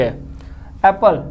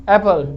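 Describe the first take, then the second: First: Apple drawn out slowly; slow syllable demo. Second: Said in the usual way. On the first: Shown as a demonstration. Teacher helping students count syllables, slow careful word. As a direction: stretch Apple so its two syllables show. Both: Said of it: "धीरे बोलने पे समझ में".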